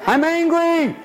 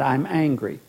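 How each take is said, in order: First: Much higher, put-on petulant voice; whiny client. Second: Said in the usual way. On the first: Therapist mimics a client answering, petulant whine. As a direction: pout it out like a sulky child. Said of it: "how you feel about it?". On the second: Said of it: "we call frustration and".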